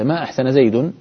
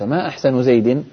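First: The last word ends with the vowel u. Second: The last word ends with the vowel i. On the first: Denies that he did anything well. "فإن رفعت زيدا" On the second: Asks what his best feature is. "وإن أضفت أحسن إلى زيد"

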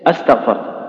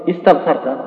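First: The word begins with a short a vowel. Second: The word begins with a short i vowel. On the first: It asks a question. "نسقط همزة الوصل تصير إيش استغفرت" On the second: It is a plain statement. "دخلنا عليها همزة الوصل صارت إيش استغفرت"

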